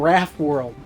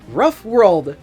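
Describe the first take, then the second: First: The first vowel sounds like the one in cat. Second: The first vowel sounds like the one in cut. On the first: The speaker calls it wrong. "makes more sense than Raff World" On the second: The speaker calls it right. "pronounced like you would pronounce the vowel in the words love or cut"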